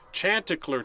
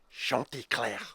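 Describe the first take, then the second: First: It is pronounced with English sounds. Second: It is pronounced with French sounds.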